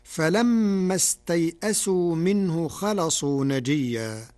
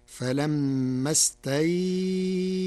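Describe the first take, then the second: First: Measured recitation with استيئسوا in passing; careful verse reading, brief glide in استيئسوا; cited verse. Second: استيئسوا with the ay held four counts; long, level held ay in استيئسوا; medium leen lengthening. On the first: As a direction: recite the verse firmly, استيئسوا without a long hold. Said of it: "بتوسط اللين في كلمة استيئسوا". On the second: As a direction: stretch the ay glide in استيئسوا before the hamza. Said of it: "بقدر أربع حركات". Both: Shown as a demonstration.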